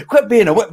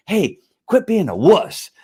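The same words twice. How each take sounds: First: Higher, louder mock yell of "Quit being a wuss"; barking scold. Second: Higher, laughing mock scold. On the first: Host yells at weary men, higher and louder. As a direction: bark it out at the viewers. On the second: Host pretends to open a show, laughing while he scolds. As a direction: tease through a laugh.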